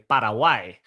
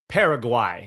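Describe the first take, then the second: First: The name is said with a Spanish-like pronunciation. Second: The name is said with an anglicized pronunciation. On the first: This is how it is properly said. "you want to say it correctly" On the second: This is how most people say it. "Paraguay is how I, you're going to hear it"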